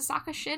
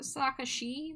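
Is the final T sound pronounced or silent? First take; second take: pronounced; silent. First: The final T sound is pronounced. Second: The final T sound is left silent.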